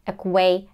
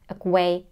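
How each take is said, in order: No difference in how they are said.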